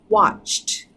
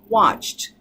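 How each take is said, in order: First: The ending is blended smoothly into the t. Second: The same.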